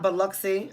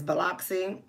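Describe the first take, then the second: First: "Biloxi" with the middle syllable like "luck"; pronunciation, luck vowel. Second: "Biloxi" with the middle syllable like "lock"; alternative pronunciation, lock vowel. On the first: Host offers the city name as she thinks it's pronounced, "Biloxi" as buh-LUCK-see. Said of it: "I think that's how you pronounce it". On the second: Host invites correction with the other version, "Biloxi" as buh-LOCK-see. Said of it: "you know, just correct me". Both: Shown as a demonstration.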